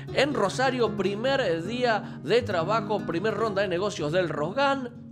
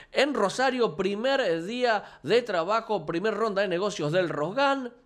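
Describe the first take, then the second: Both takes have the same delivery.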